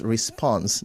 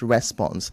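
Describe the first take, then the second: First: The stress is on the second syllable. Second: The stress is on the first syllable. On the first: The speaker calls it right. "The stress is on the on spons" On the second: The speaker calls it wrong. "not on the re"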